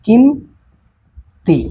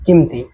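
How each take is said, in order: First: किम held, a pause, then ती; किम ... ती, with a clear gap; split into syllables. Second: Said in the usual way. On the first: Shown as a demonstration. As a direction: break किम ती into two separate beats. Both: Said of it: "एक और तरीके से बता रहे हैं".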